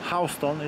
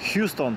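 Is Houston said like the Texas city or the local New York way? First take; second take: New York; Texas city. First: It is said unlike the Texas city's name. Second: It is said like the Texas city's name. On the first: This is how the street is read locally. The speaker calls it right. "ale podobno tutaj czyta się Houston" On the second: This is how outsiders would read the name. The speaker calls it wrong. "nazywa się teoretycznie Houston, tak jak miasto w stanie Texas"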